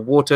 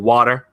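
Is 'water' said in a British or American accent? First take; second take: British; American. First: It is said in a British accent. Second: It is said in an American accent.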